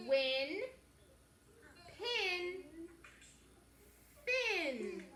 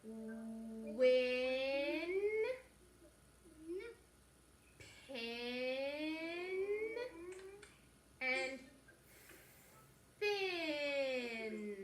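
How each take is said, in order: First: Quicker, punchier words; faster reading. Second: Drawn-out, stretched words; slow reading. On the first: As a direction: read them a bit faster. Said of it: "a little bit faster". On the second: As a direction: read each word slowly, holding it. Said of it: "read them with me". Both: Shown as a demonstration.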